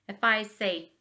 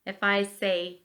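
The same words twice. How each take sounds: The two takes are said the same way.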